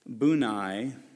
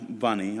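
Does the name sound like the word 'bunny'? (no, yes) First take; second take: no; yes. First: The name does not sound like 'bunny'. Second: The name sounds like the word 'bunny'.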